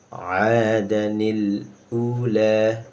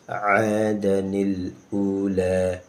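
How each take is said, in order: First: A linking 'ni' sound joins 'adan to ula. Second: The same.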